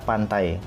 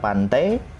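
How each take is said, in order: First: The word ends in the diphthong ai. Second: The word ends in a vowel other than ai. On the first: The speaker calls it right. "tapi dibaca pantai" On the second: The speaker calls it wrong. "Bukan pantai"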